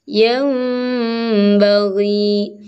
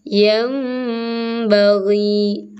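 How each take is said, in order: No difference in how they are said.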